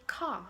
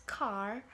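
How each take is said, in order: First: Car with the final R dropped; British-style car ending on an open vowel; British pronunciation. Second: Car with the final R pronounced; American-style car, R fully sounded. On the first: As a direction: say car as "cah", no R. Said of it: "British say car". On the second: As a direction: say car, curling an R at the end. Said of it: "they treat the R sound very differently". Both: Shown as a demonstration.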